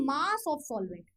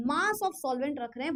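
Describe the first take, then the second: First: Slow stress. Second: Said in the usual way. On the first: Shown as a demonstration. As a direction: slowly spell out Mass of solvent, each word stretched. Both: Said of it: "मतलब नीचे हम क्या रख रहे हैं?".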